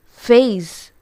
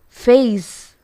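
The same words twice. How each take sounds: First: The word ends with a buzzing Z sound. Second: The word ends with a buzzing Z sound.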